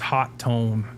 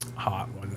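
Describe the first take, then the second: First: The name is said with a second T sound. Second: The name is said without a second T sound. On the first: The speaker calls it right. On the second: The speaker calls it wrong.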